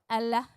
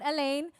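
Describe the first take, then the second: First: The name sounds like 'Allah'. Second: The name sounds like 'Elaine'. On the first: The speaker calls it right. "now we know how to pronounce it" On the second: The speaker calls it wrong. "not Elaine"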